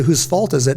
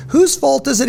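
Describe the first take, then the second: First: Said in the usual way. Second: High-pitched pointed question; teacher's challenge. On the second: Retold or imitated. Teacher training SEALs to take the blame, high challenging question. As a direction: pitch it way up, quizzing the student.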